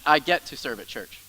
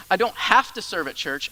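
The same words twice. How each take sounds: First: "get" held and leaned on, "I get to serve at church", falling; stress on get. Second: "have" punched, "I don't have to serve at church"; stress on have. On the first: Pastor contrasting duty with privilege, stressing get. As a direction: land on get as a gift. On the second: Pastor contrasting duty with privilege, stressing have. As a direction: hit the word have as the burden. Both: Shown as a demonstration. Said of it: "Listen to this".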